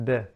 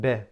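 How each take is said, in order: First: The vowel after b is lax and incomplete. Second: The vowel after b is lax and incomplete.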